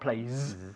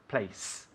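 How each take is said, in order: First: The word ends in a buzzing z. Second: The word ends in a sharp hissing s. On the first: The speaker calls it wrong. "Not place" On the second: The speaker calls it right. "hacer un sonido de S muy fuerte"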